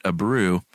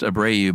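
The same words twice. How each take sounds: First: Abreu as "ah-BROO"; friend's pronunciation. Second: Abreu as "ah-BRAY-oo"; alternate pronunciation. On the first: Host quoting close friend's pronunciation, Abreu as ah-BROO. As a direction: end Abreu on a single oo syllable. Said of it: "she pronounces it Abreu". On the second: Host citing a pronunciation she has seen, Abreu as ah-BRAY-oo. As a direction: split the end of Abreu into ay-oo. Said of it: "I've seen it pronounced Abreu". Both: Shown as a demonstration.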